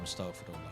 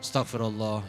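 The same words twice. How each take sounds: First: It is said calmly, with steady intonation. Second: It is said agitated, with shifting intonation. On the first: The heart is at peace. The speaker calls it right. "yang dia tidak berubah intonasi" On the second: The remembrance is not bringing peace. The speaker calls it wrong. "intonasi istighfar yang berubah itu menandakan hasil tidak dicapai"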